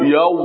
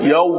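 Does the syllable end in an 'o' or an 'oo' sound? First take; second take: oo; oo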